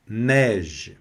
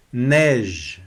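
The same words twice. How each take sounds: The two takes are said the same way.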